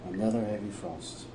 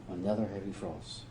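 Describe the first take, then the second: No difference in how they are said.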